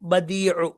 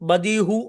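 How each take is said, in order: First: The last consonant is a throaty ain sound. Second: The last consonant is a plain h sound. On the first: The speaker calls it right. "ഐനാണ്" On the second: The speaker calls it wrong. "എന്ന് പറയരുത്"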